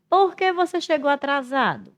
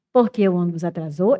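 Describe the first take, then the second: First: High from POR QUE, dropping at the end of atrasado; really ask, holding POR QUE high; genuine question intonation. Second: Low PORQUE, rising on atrasou; insinuating intonation. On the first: Teacher wants to know, in doubt, questioning intonation. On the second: Teacher offers latecomer a cause, insinuating rise. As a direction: suggest the cause, lifting only ATRASOU. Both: Shown as a demonstration. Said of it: "já é outra entonação".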